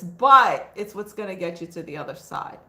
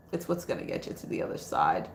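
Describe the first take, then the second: First: Said in the usual way. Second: A low whispered echo of the line. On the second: Shown as a demonstration. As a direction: repeat it in a breathy whisper. Repeated line, now whispered.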